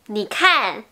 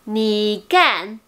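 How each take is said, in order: First: The second word starts with a puff of air. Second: The second word starts without a puff of air. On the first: The speaker calls it right. "ça veut dire regarde" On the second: The speaker calls it wrong. "il n'y a pas l'air qui sort"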